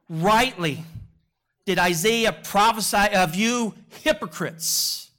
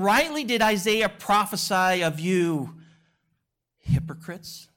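First: It is said sternly and harshly. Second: It is said softly and gently.

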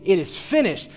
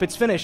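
First: It sounds firm, like a triumphant declaration. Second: It sounds resigned, like giving up.

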